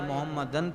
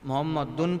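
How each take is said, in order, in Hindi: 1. शब्द -dan पर खत्म होता है, n की आवाज़ के साथ। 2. शब्द का आखिरी हिस्सा अलग -dun अक्षर है। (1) "मोहम्मदन पढ़ता है" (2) "वरना कोई आकर मोहम्मद दुन पढ़ता है"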